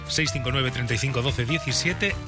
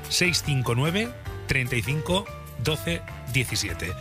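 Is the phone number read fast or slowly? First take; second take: fast; slowly. First: The number is read quickly. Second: The number is read slowly. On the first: The speaker calls it wrong. "lo dices muy rápido" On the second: The speaker calls it right. "Digo más despacio el WhatsApp"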